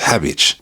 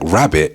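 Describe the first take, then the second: First: The word begins with an H sound. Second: The word begins with an R sound.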